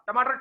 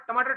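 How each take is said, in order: Both takes have the same delivery.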